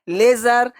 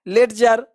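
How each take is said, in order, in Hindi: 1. बीच में d की कोई आवाज़ नहीं बोली जाती। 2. बीच में d की साफ़ आवाज़ बोली जाती है।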